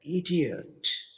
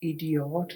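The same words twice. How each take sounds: First: The last syllable has an 'ah' vowel. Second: The last syllable has an 'oh' vowel. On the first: The speaker calls it right. "ये है इडियट" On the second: The speaker calls it wrong. "यहाँ पे ओ नहीं पढ़ना, इडियट नहीं कहना, इडियट गलत हो जाएगा"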